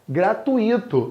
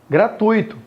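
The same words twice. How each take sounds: First: The u and i are split into two syllables. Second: The u and i merge into one syllable. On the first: The speaker calls it wrong. "Mas não é gratuito a pronúncia" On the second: The speaker calls it right. "a pronúncia é gratuito"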